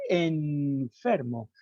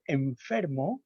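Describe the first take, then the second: First: Enfermo slowed, with a clear alveolar n before the f; wrong alveolar n. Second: Enfermo said softly, the n joined to the f on lip and teeth; natural labiodental n. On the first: Lecturer shows the wrong way to say enfermo, slowly. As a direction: mark enfermo the wrong way, tongue up for the n. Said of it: "no decimos enfermo". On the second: Lecturer shows the natural enfermo with a labiodental n. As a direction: let the n in enfermo slide onto the f. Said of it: "sino enfer". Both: Shown as a demonstration.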